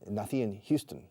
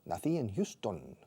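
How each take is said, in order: First: Houston is said with English sounds. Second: Houston is said with Spanish sounds. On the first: The speaker calls it wrong. "I never say" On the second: The speaker calls it right. "I always Spanishize the proper nouns"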